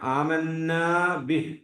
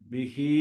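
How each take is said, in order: First: The last word ends cut short without a vowel. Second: The last word ends with a full final vowel. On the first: The reciter stops at this word. The speaker calls it wrong. "ശരിക്കും വഖഫിന്റെ സ്ഥലമല്ല" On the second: The reciter continues without stopping. The speaker calls it right. "വഖഫ് ചെയ്യാതിരിക്കലാണ് ഉത്തമം"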